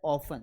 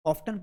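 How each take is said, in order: First: "often" said OFF-un; silent T. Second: "often" said OFF-tun; T pronounced. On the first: Teacher showing the British variant, silent T. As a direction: drop the t from "often". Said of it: "British में इसे पढ़ा". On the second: Teacher showing the American variant, T pronounced. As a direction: sound the t clearly in "often". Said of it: "American language में इसे often". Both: Shown as a demonstration.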